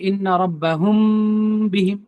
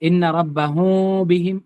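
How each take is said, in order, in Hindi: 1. m पर होंठ पूरी तरह कसकर बंद होते हैं। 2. m की आवाज़ में होंठ अलग रहते हैं। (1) "पूरी तरह से होंठ को दबा के भी नहीं रखना है" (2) "होंठ नहीं सट रहे"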